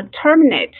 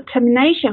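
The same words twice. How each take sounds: First: Terminate with TER as the strongest syllable; stress on first syllable of terminate. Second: Termination with NA as the strongest syllable; stress on NA in termination. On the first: Teacher contrasts verb with noun, TER stressed in terminate. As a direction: put the weight on TER in terminate. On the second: Teacher contrasts noun with verb, NA stressed in termination. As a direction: put the weight on NA in termination. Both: Shown as a demonstration. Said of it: "名词的重音跟动词的重音在不一样的地方".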